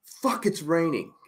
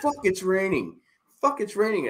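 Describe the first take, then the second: First: Slow, higher mock complaint; complaining mom. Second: Higher, whiny mock complaint; complaining mom. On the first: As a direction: whine it like an annoyed mom. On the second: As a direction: mimic mom's repeated grumble. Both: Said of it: "my mom was complaining".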